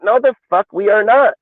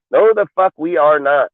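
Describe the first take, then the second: First: High, louder flat refusal, the fuck hit hardest; emphatic outburst. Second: No punched, rest of the refusal falling; stress on No. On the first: Host shooting down a trade rumour, high emphatic outburst. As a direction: bark it out as an outright no. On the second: Host repeating his refusal to fans, No stressed. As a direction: lead with a hard No, then let it fall. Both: Real, not acted.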